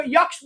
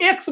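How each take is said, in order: First: "यक्ष" for the letter X, with a y at the front; regional pronunciation. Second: Said in the usual way. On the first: Shown as a demonstration. Teacher shows students another region's tone, regional "यक्ष". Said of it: "उसको यक्ष बोला जाता है". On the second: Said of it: "हम लोग एक्स बोलते हैं".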